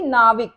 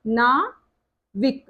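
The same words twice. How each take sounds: First: Said in the usual way. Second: नाविक drawn out very slowly, stressing the आव; slow demo. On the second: Shown as a demonstration. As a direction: stretch नाविक to show the आव sound. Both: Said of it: "आव, यहाँ पे sound देखोगे".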